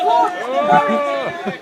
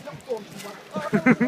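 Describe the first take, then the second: First: Gaunt and worried drawn out slow and loud; gaunt and worried, slow and hollow. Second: Said in the usual way. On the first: Shown as a demonstration. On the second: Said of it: "gaunt and worried faces".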